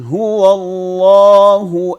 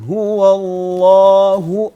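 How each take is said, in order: No difference in how they are said.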